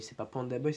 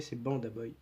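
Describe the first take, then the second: First: "Panda" with a clear P; wrong name. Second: "Banda" with a clear B; correct name. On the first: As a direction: say "Panda Boy" starting with P. (« Panda » prononcé avec un P) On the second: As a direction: say "Banda Boy" starting with a voiced B. (« Banda » prononcé avec un B sonore) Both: Shown as a demonstration.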